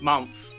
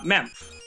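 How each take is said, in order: First: The vowel is a U sound, as in 'hum'. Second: The vowel is an E sound, as in 'hem'. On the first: "I mispronounced it as Mumph" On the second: "what it actually looked like"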